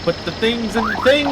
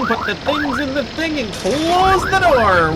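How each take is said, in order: First: Said in the usual way. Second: Calling out. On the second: Real, not acted. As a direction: raise the voice so they hear you from the next room. Repeats the call, louder.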